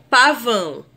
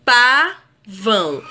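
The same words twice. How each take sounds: First: Said in the usual way. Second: "pavão" split slowly into pa, vão; teacher sounding out "pavão" in two beats; syllable by syllable. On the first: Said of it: "existirem duas sílabas na separação silábica". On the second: Shown as a demonstration. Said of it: "duas sílabas na separação silábica".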